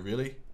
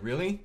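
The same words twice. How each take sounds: First: The pitch stays flat, English style. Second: The pitch is inflected, rising upward.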